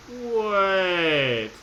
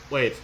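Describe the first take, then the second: First: Surprised drawn-out wait. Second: Said in the usual way. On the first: Real, not acted. Player suddenly noticing a clue, drawn out. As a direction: stop yourself mid-thought, surprised.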